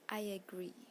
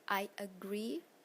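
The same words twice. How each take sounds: First: An extra sound links the two words. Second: No extra sound comes between the words.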